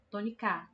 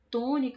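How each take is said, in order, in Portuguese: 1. A tônica está na última sílaba. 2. A tônica está na primeira sílaba. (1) "E se fosse o K" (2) "a gente percebe que o tó é o tom"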